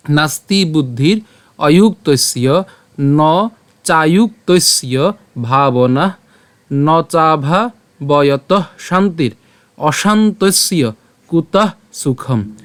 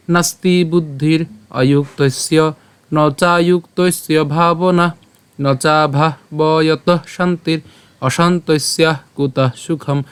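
First: Very slow, word-by-word Sanskrit verse; pure Sanskrit pronunciation. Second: Slow chanted Sanskrit verse; melodic chanting. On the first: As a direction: pronounce the verse slowly with pauses between words. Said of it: "আবার প্রথম থেকে বলি". (শ্লোকটি খুব ধীরে, ভেঙে ভেঙে উচ্চারণ) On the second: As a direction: chant the shloka tunefully on sustained notes. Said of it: "যদি সুর করে পাঠ করি". (chanted, সুর করে ধীরে শ্লোকপাঠ) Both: Shown as a demonstration.

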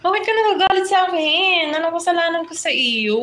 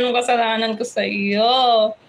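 First: Pitched higher, hammed-up wounded pleading; a teasing, high mock plea asking what he did wrong; mock hurt plea. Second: Mock voice of the angry one, not too heavy; put-on angry voice. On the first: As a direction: play the falsely accused friend, half-joking. Teasing a commenter who seems angry. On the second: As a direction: voice the grumpy commenter, half-joking. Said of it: "Sino yung nagagalit na yun?".

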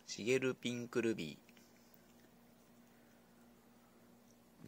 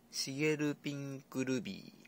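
First: シゲルピンクルビー stretched syllable by syllable; very slow drawn-out name. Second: Said in the usual way. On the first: Shown as a demonstration. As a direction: draw シゲルピンクルビー out slowly like an announcer. (「シゲルピンクルビー」をゆっくり引き伸ばして)

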